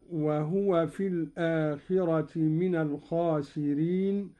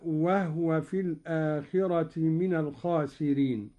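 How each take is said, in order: First: Said in the usual way. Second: وهو with silent ha, wahwa; Qalun reading. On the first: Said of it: "قرأ قالون بإسكان الهاء". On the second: Shown as a demonstration. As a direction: say وهو clipped as wah-wa. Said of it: "قرأ قالون بإسكان الهاء هكذا". (وهو بإسكان الهاء)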